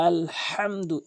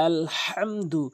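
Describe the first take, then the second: No difference in how they are said.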